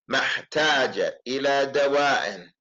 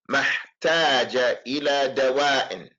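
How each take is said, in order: The two takes are said the same way.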